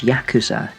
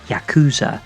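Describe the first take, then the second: First: The stress is on the first syllable. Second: The stress is on a later syllable.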